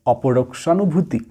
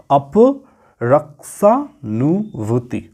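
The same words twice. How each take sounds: First: Said in the usual way. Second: অপরক্ষানুভূতি drawn out slowly, syllable by syllable; very slow syllable-split অপরক্ষানুভূতি; broken into syllables. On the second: Shown as a demonstration. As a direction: sound out অপরক্ষানুভূতি piece by piece for students. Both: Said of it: "একটু ভেঙে ভেঙে পড়তে হবে".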